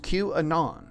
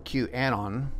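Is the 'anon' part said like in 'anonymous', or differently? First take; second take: like anonymous; differently. First: The 'anon' part is said like 'anonymous'. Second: The 'anon' part is not said like 'anonymous'. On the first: The speaker calls it right. "It's QAnon, as in anonymous" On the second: The speaker calls it wrong. "you'll be corrected if you say QAnon"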